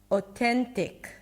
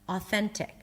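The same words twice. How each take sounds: First: The first vowel sounds like "oh". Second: The first vowel sounds like "ah". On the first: The speaker calls it wrong. "I said O instead of A" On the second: The speaker calls it right. "A A is the A as in father"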